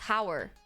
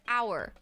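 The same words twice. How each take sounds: First: The word starts with an h sound. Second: The word starts with no h sound. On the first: The speaker calls it wrong. "you spell it with an H, so it's like hour" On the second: The speaker calls it right. "this is a silent letter. Like hour"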